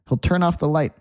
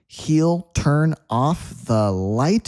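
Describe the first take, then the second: First: It is said quickly with the words blended. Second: It is said slowly with each word clear.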